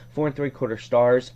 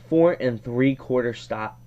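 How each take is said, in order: First: It is said in a neutral accent. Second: It is said in a Boston accent.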